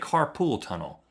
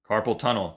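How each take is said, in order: First: The first word sounds like carpool. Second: The first word sounds like carpal. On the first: The speaker calls it wrong. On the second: The speaker calls it right.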